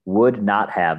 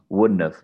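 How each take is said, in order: First: Every word is said in full. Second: The words are squeezed into a contraction.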